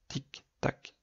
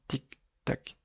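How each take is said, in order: No difference in how they are said.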